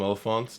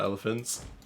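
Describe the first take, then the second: First: The first vowel sounds like 'oh'. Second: The first vowel sounds like 'eh'. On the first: This is the name used in a fantasy story. "Lord of the Rings they call them elephants" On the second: This is the ordinary name for the animal. "not elephants"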